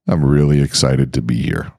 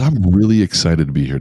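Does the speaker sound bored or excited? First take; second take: bored; excited. First: It sounds flat and unenthusiastic. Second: It sounds genuinely enthusiastic and lively.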